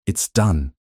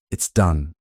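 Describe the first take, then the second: First: Said in the usual way. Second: Dully. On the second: A narrator's reading. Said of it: "she repeated dully".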